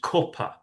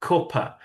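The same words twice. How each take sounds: First: It is said with a northern English vowel. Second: The same.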